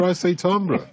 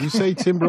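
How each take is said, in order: First: "timbre" said "tahm-bruh", French-style; presenter insisting on his own "timbre", "tahm-bruh" with a broad a; English "timbre" as TAM-bruh. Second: "timbre" said like "tam-brr", mocking the other way; presenter teasing a guest's "timbre", "tim-ber" with a short i; mock English "timbre" as TAM-ber. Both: Shown as a demonstration.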